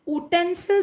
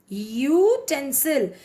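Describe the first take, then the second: First: उटेंसिल with a short u and no y glide; wrong pronunciation. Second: यूटेंसिल slowly, beginning with a clear yoo; correct pronunciation. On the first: Teacher showing the wrong version, slightly higher. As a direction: say उटेंसिल clipped to a bare u. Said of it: "उटेंसिल तो नहीं बोलते हैं हम". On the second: Teacher modelling the word slowly for students. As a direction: stress the yoo at the start of यूटेंसिल. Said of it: "यू sound आ रहा है". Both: Shown as a demonstration.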